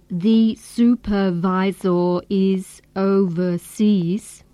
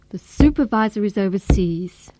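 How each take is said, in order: First: The unstressed syllables keep full vowel sounds. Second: The unstressed syllables use weak, reduced vowels. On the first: The speaker calls it wrong. "So we don't say" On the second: The speaker calls it right. "we use weak forms and say"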